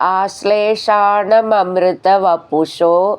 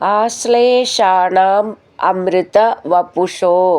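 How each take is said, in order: First: The first two words are run together. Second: The first two words are said separately.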